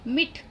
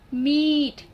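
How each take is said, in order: First: The vowel is clipped short. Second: The vowel is drawn out long. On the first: The speaker calls it wrong. "तो वो गलत है" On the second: The speaker calls it right. "थोड़ा लंबी आवाज से पढ़ी, यानी कि थोड़ा अ, खींच के पढ़ी"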